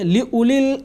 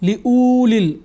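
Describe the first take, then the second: First: The waw vowel is kept short. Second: The waw vowel is drawn out long. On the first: The speaker calls it right. "तो इसको हम लंबा नहीं पढ़ेंगे बल्कि पढ़ेंगे" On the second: The speaker calls it wrong. "ये गलत हो जाएगा चूँकि वाव के ऊपर कोई हरकत जज़म वगैरह कुछ भी नहीं है"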